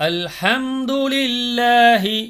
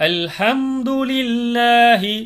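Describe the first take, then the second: No difference in how they are said.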